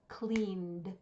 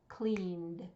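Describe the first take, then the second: First: The word is said with one syllable. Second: The word is said with one syllable.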